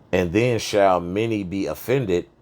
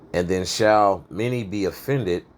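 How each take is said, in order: Both takes have the same delivery.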